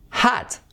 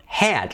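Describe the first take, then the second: First: Hot with an a-like o; hot, open o; hot as in rock; hot like hat. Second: Hat with a flat a as in ran; hat, fan vowel; hat, a as in can. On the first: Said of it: "Una O como A". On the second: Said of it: "hat sería como ran". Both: Shown as a demonstration.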